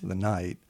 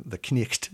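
First: Said in the usual way. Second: "knecht" with the k and a throaty ch sounded; Middle English knecht. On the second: Shown as a demonstration. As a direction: say "knecht" with a hard k and ch. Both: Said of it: "the knight is pronounced".

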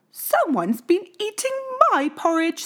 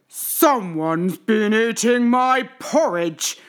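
First: High, lightly voiced mother bear; Mama Bear. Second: Big, loud, slow bear growl; Papa Bear growling. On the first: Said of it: "said Mama Bear". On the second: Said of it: "growled Papa Bear". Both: A narrator's reading.

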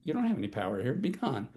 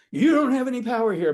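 First: Quiet certainty. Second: Loud, high, pushy declaration; shouting it to sound powerful; forceful shout. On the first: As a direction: say it with quiet full knowledge of power. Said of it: "coming from full knowledge of power". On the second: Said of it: "Not like". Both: Shown as a demonstration.

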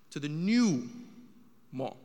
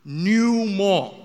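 First: Said in the usual way. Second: New mall, NEW punched much louder; stress on NEW. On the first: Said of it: "I gotta emphasize that". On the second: Shown as a demonstration. Comic hammering New mall at the crowd. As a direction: bang out New like a drum. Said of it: "I'm emphasizing this for you guys".

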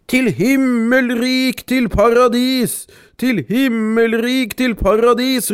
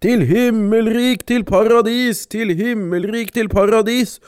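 First: High, slow chant from the sack; calling out. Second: High, slow chant; the shepherd in the sack, chanting; calling out. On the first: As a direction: call it out slowly, sing-song. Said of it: "ropte Vesleper som lå i sekken". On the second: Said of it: "mannen tok til å rope". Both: A narrator's reading.

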